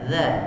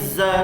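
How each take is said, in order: First: The tongue tip touches the upper teeth edge. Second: The tongue stays behind the teeth, a plain z. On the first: The speaker calls it right. "hujung lidah sentuh hujung gigi atas je" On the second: The speaker calls it wrong. "jangan za lagi"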